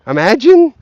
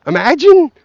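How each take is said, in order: Both takes have the same delivery.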